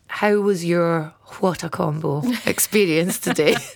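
It is spoken in a clear, put-on phone voice. The speaker calls it right. "I'm going to use my phone voice"

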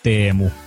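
The name is pronounced with Finnish sounds. "The way how you pronounce it in correct Finnish"

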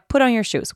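The voice is sharp and frustrated. The speaker is getting angry.

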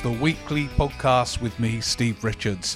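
It is said in a put-on silly voice.

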